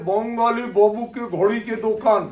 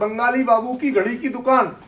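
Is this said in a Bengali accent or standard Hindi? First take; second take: Bengali; standard Hindi. First: It is said in a Bengali-style accent. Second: It is said in a standard Hindi accent. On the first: "वो कहते" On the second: "हमने board पे लिखते थे"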